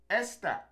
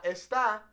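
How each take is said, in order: First: "esta" as ES-ta, high start then falling; stress on first syllable. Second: "esta" as es-TA, stressed at the end; wrong final stress. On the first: Teacher modelling the correct word, "esta" stressed up front. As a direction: lean on the opening E of "esta". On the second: Teacher showing what not to say, "esta" stressed on TA. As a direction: punch the last syllable of "esta". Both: Shown as a demonstration. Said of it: "not esta".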